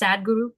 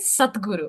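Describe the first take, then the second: First: The middle consonant is a voiced d sound. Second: The middle consonant is a voiceless t sound. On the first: The speaker calls it wrong. "please don't pronounce it as Sadguru" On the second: The speaker calls it right. "but it is Satguru"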